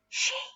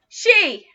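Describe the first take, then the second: First: It is whispered very quietly. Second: It is shouted very loudly. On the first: "Let's whisper it really quietly" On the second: "Let's shout it really loudly"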